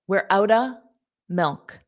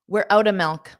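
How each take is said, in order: First: The phrase is said slowly. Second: The phrase is said quickly. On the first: "So that's slow" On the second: "That's fast"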